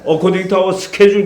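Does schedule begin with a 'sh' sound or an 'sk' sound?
sk sound. Schedule begins with an 'sk' sound. The speaker calls it wrong. "그러니까 왕촌놈 같아 보이니까"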